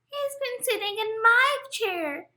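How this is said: The voice is high, small and squeaky. "Squeaked Baby Bear"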